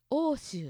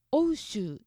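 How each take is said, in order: First: 欧州 said おおしゅう with one long o; 欧州 with the おう merged to a long おお; 欧州 as oo-shuu. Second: 欧州 with the おう sounded as o then u; 欧州 as o-u-shuu; spelled-out ou. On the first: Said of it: "欧州って言いますよね". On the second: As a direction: say 欧州 as おうしゅう, both vowels. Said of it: "欧州ではなくて". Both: Shown as a demonstration.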